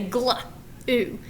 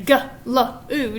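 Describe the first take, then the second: First: G and L are blended into one sound, then oo. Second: G, L and oo are said as three separate sounds. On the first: The speaker calls it right. "the G and the L make one sound" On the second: The speaker calls it wrong. "you don't say g, l, oo, do you? No"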